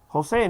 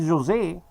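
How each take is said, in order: First: The name is said with Spanish pronunciation. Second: The name is said with non-Spanish pronunciation. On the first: The speaker calls it right. "in Spanish it's Jose" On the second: The speaker calls it wrong. "not Jose"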